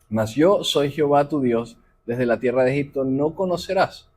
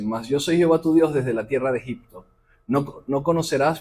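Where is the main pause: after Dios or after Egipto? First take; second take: after Dios; after Egipto. First: The phrase breaks after Dios, not after Egipto. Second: The phrase breaks after Egipto, not after Dios. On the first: The speaker calls it wrong. "no lo dije con la, la entonación correcta" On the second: The speaker calls it right. "le vuelvo a leer"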